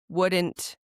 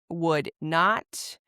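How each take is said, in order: First: Not is shortened and joined to the verb. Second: Not is said as a separate full word. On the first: "this is how you would pronounce them as a native speaker does" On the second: "you just add not"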